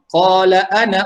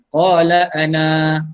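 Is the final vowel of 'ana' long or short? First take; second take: short; long. First: The final vowel of ana is short. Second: The final vowel of ana is long. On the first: The reading continues into the next words. "Kalau sambung" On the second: The reading stops after this word. "Kalau berhenti"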